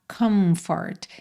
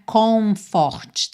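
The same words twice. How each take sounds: First: The vowels sound closer to an 'a'. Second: The vowels sound like a round 'o'. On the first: The speaker calls it right. "esses O's, não são O, O, é meio A" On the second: The speaker calls it wrong. "E não é comfort"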